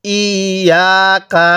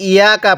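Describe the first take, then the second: First: ইয়াকা drawn out slowly with a doubled y; slow, measured ইয়াকা with tashdid; clear tashdid. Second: ইয়াকা said quickly with a single light y; ইয়াকা, short and undoubled; missing tashdid. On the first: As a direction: lean on the double y in ইয়াকা, then lengthen the aa. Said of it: "তাসদিদটাকে বাদ দিব না". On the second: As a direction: rush through ইয়াকা without doubling the y. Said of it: "তাসদিদটাকে বাদ দিয়ে দেই". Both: Shown as a demonstration.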